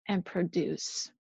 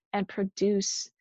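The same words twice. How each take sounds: First: Softer, slower, trailing off; fading repetition. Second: Said in the usual way. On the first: Shown as a demonstration. Preacher fading the endless demand to produce, slowly. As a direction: let the last repeat sink away. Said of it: "repeated phrase, fading take". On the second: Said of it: "repeated phrase, first take".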